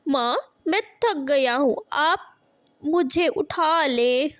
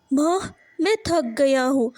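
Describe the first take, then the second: First: Put-on whimpering tired child. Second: Said in the usual way. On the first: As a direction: beg to be picked up, near tears. Tired child begs mother. (थकान से रोते हुए विनती) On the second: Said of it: "Jaggu अपनी माँ गौरी से कहता है".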